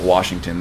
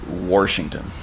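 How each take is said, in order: First: It is said without an R sound. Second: It is said with an R, like Warshington.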